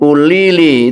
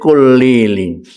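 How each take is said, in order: First: The word begins with a vowel, no K. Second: The word begins with a K sound.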